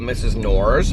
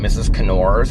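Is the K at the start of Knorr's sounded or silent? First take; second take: silent; sounded. First: The K at the start is silent. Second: The K at the start is sounded. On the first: "it was called Missus Knorr's" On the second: "I pronounced it Missus Knorr's because it was like K N O R S"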